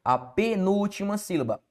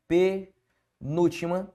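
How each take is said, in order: First: Said in the usual way. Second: "Penúltima sílaba" slowly, with a pause after Pe and before sílaba; "Penúltima sílaba" drawn out in pieces for the class; broken up slowly. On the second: Shown as a demonstration. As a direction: spell out "Penúltima sílaba" in separated chunks. Teacher repeats the term split up.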